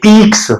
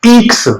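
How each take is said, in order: First: "ईक्स" with ई stressed, raised; stress on the vowel. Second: "ईक्स" with the ई raised high; stress on the vowel. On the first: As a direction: hit the opening ई of "ईक्स". ("ईक्स" ई पर ज़ोर देकर) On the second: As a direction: push the ई of "ईक्स". ("ईक्स" में ई पर ज़ोर) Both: Shown as a demonstration. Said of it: "थोड़ा ई पे जोर देंगे".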